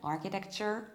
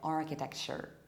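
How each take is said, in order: First: The middle consonant is a 'ch' sound. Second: The middle consonant is an 'sh' sound. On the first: "it might be ch" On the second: "or it might be sh, like"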